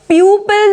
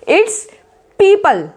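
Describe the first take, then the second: First: The first syllable sounds like pew. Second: The first syllable sounds like pee. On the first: The speaker calls it wrong. "प्यूपल नहीं बोला जाएगा" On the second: The speaker calls it right.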